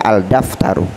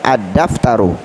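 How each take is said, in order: First: The L is clearly pronounced before the D. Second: The L blends into a doubled D sound. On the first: The speaker calls it wrong. "Tidak boleh dibaca al-daftaru" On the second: The speaker calls it right. "Jadi cara membacanya ad-daftaru"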